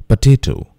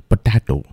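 First: "Potato" said puh-TAY-toh; "Potato" with a long TAY; careful "Potato", puh-tay-toh; correct pronunciation. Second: "potato" said puh-TAH-toh with hard retroflex t sounds; mispronounced "potato", puh-tah-toh; wrong pronunciation. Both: Shown as a demonstration.

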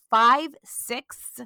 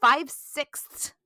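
First: Five-sixths stretched out slowly; labouring over five-sixths; slow careful five-sixths; struggling to say it. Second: Five-sixths slow and stretched, sixths blurred; fumbling the word five-sixths; slow tangled five-sixths; struggling to say it. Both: Real, not acted. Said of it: "I can't hardly say that".

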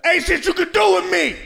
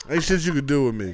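First: Much higher, louder bratty defiance; mock defiant kid shout. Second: Laughing repeat. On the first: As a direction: shout it high and loud like a bratty child. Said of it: "that's how I sound when I be whipping my kids' ass". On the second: Real, not acted. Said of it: "Always love saying that".

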